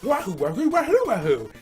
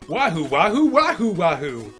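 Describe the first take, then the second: First: It is said in a little cartoon voice. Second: It is said like an anime voice actor.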